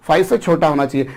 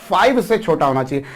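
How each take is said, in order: No difference in how they are said.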